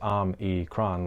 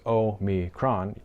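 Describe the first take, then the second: First: The first syllable break comes right after M. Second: The first syllable break comes right after O. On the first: "than if you think of it as om-e-cron" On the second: "If you think of it as o-mi-cron"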